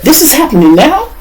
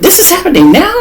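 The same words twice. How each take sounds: First: High, rising disbelieving lady voice; lady's shocked question. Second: Even higher, rising squeak of disbelief; lady's shocked question. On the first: Lady hearing of the arrest, asking high in disbelief. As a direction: mimic the startled lady, pitched way up. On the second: Lady asked again by the lawyer, answering high and incredulous. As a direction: repeat her words pitched up high. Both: Retold or imitated. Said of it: "This is what the lady said".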